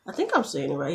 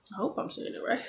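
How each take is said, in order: First: Said in the usual way. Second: Soft, unvoiced doubtful aside; whispered worry. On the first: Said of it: "unsure of pronunciation". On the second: Real, not acted. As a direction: mutter it to yourself. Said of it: "repeats doubt in a whisper".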